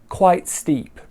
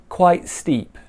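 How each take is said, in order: Both takes have the same delivery.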